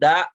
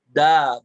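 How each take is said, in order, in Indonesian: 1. Vokalnya dipotong mendadak dengan hentian. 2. Vokalnya dilepas dan meluruh terbuka. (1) "ditekan-tekan belakangnya" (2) "Da harusnya dilepas suaranya"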